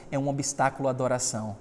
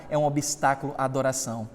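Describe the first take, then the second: No difference in how they are said.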